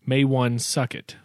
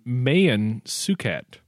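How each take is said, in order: First: The first name sounds like 'May-wan'. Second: The first name sounds like 'May-an'. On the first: The speaker calls it wrong. "not Maywan Suket, which some people pronounce it" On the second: The speaker calls it right. "He was actually named Mayan Suket"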